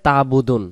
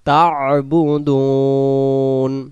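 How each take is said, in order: First: The ain throat sound is left out. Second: The ain throat sound is clearly pronounced. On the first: The speaker calls it wrong. "আইন অক্ষরটা আদি করা না করার কারণে উচ্চারণটা হয়ে যায় তাবুদুন" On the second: The speaker calls it right. "এখানে উচ্চারণ হবে তা আইন জবর তা"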